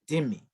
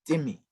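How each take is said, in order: Both takes have the same delivery.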